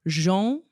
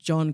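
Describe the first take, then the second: First: The name has a French-sounding 'Jean' vowel. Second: The name has an open 'o' vowel. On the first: The speaker calls it wrong. "as opposed to you pronounced it Jean. So he wasn't French" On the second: The speaker calls it right. "as you said"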